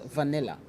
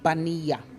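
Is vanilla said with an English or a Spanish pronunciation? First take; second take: English; Spanish. First: It is said with English V and L sounds. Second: The V sounds like B, the L like Y. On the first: The word has been adopted into English. "we pronounce it as vanilla" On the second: This is how the word is said in its source language. "a typical Spaniard will pronounce it as vanilla. So the V has a B sound"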